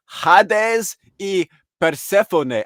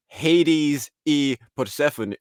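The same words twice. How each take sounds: First: Put-on slow, high, emphatic Spanish accent; Spanish-accented names, loud and drawn out. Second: Imitating Spanish names said with English sounds; English pronunciation. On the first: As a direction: say the names slowly with Spanish vowels. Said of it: "I just said it with a Spanish accent". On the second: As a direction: Hades as HAY-deez, in English. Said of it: "he was saying it all English".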